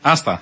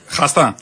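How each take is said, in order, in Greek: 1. Ξεκινά κατευθείαν από το φωνήεν, χωρίς ήχο χ. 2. Ξεκινά με τραχύ, βραχνό ήχο χ. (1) "Με χ" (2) "Με χ"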